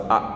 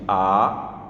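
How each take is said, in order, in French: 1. La voyelle est tenue très brièvement. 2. La voyelle est allongée. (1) "il faut les garder de la façon la plus courte possible" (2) "c'est pas bon parce que ça devient une voyelle longue"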